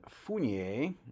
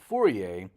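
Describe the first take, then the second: First: An n sound comes before the final syllable. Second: No n sound comes before the final syllable. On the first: The speaker calls it wrong. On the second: The speaker calls it right.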